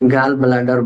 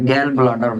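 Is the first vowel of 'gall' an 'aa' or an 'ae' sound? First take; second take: aa; ae. First: The first vowel is an open 'aa' sound. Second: The first vowel is a front 'ae' sound. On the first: The speaker calls it wrong. "गाल ब्लाडर बोला" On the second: The speaker calls it right. "गैल ब्लाडर बोला जाता है"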